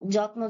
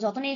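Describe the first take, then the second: First: The two consonants are said together as a cluster. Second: A vowel splits the two consonants apart. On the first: "যুক্ত বর্ণ" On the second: "ভেঙে উচ্চারণ করা হয়"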